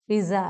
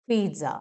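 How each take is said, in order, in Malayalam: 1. നടുവിൽ സാധാരണ s ശബ്ദമാണുള്ളത്. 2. നടുവിൽ ts ശബ്ദമാണുള്ളത്. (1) "പിസ്സ അല്ല" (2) "ട സൗണ്ട് കൂടെ വേണം"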